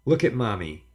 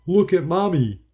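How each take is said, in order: First: Said in the usual way. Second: High, loud, bright clown call; best clown voice. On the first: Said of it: "contrast with clown voice". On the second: A narrator's reading. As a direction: play the silly clown to win the child. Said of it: "I said in my best clown voice".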